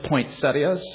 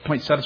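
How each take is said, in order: First: The ending has an extra 'ee' sound: set-ee-as. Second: The ending drops the 'ee' sound: set-as.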